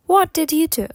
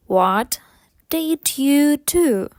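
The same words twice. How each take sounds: First: Quick connected question; faster. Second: Slow, separated words. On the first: Teacher models the question at speed, faster. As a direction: say it as one smooth, quicker phrase. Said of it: "потім швидше". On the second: Teacher models the question for learners, slowly first. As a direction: stretch it out word by word. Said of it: "спочатку повільно". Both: Shown as a demonstration.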